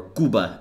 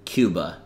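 First: "Cuba" in a Spanish accent, KOO-bah, no y sound. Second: Said in the usual way. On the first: Shown as a demonstration. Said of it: "I like saying things in Spanish accent". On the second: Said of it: "or Cuba, as I like to call it".

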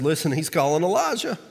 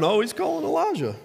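First: Said in the usual way. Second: Sneering, much higher mock; mocking laugh. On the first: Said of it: "they said". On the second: Bystanders jeering at the dying man, mocking high. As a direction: jeer it like a bystander. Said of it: "But they're laughing".

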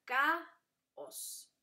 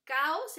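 First: Caos slowly divided as ca, os with a pause; split into syllables. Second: Said in the usual way. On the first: Shown as a demonstration. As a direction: break caos between the two strong vowels, ca then os. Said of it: "fuerte se dividen. Sería". (caos separado en ca y os) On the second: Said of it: "fuerte se dividen".

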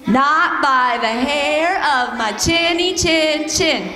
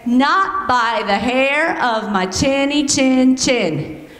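First: Slow practice take of the pig refrain; practice pig line. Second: Slow, drawn-out pig refrain; pig line demo. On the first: Leading the kids in practice, slow and drawn out. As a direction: lead the kids through it slowly. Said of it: "Let's practice". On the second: Teacher showing kids the pig line, slow. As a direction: model the line for the kids to copy. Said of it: "you guys are gonna say". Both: Shown as a demonstration.

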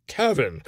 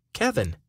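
First: Hiccup breaking the word; drunk, hiccuping on the name; suppressing hiccups. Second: Said in the usual way. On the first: Acted. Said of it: "he hiccuped without any recognition". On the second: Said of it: "names himself to old friend".

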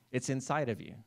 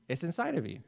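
First: Said in the usual way. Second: "inside" said again, pitched higher and pressed harder; emphatic repeat. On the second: Shown as a demonstration. Pastor repeating to the congregation, stressing "inside". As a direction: repeat it with more insistence, leaning on "inside".

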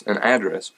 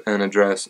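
First: "address" as AD-dress; AD-dress variant. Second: "address" as uh-DRESS; unstressed first vowel. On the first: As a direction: open "address" with a clear a as in cat. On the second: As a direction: stress the second syllable of "address". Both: Shown as a demonstration. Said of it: "however you would like me to say that".

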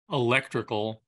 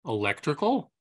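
First: Said in the usual way. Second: "electrical" with a rising, querying end; questioning repeat. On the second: Acted. Repeats the quoted word as query.

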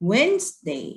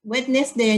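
First: "Wednesday" as WENZ-day, silent d; correct Wednesday. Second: "Wednesday" read as spelled, wed-nes-day; spelling pronunciation. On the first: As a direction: model "Wednesday" without the d sound. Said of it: "เราออกเสียงว่า". (ออกเสียง Wednesday ว่า เว้นส์เดย์) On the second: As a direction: say every letter of "Wednesday" to remember spelling. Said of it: "จำไว้ว่าเราจะสะกดอย่างไร". (อ่าน Wednesday ตามตัวสะกด เว็ด-เนส-เดย์) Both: Shown as a demonstration.

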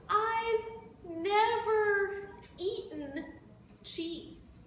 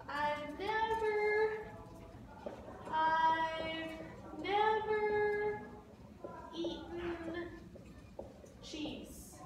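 First: Slow, a touch of a whimper, gently begging; mild pleading elephant. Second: Sung, singsong mock crying. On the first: Acted. Elephant begs the bird for cheese, slow mild whine. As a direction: draw it out like a sad little elephant. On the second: Sung, elephant begs the bird for cheese, singsong mock crying. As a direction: croon it like a tearful sing-along. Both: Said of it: "started to cry".

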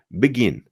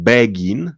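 First: "begin" as b'gin, stress on the end; quick weak first syllable in "begin", falling; reduced begin. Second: "begin" with clear BEH at the start; over-clear first syllable in "begin", rising; wrong full-vowel begin. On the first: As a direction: say "begin" with the first vowel almost dropped. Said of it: "na ostatnią sylabę". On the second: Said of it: "to nie jest begin". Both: Shown as a demonstration.

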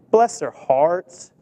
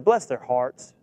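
First: Slow, drawn-out "Bless their hearts". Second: Said in the usual way. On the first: Shown as a demonstration. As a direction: stretch "Bless their hearts" fondly and slowly.

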